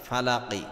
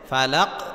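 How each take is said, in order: First: The word ends with a short 'i' vowel. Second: The word ends on a bounced 'q' consonant. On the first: The reciter continues without stopping. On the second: The reciter stops at the end of the verse.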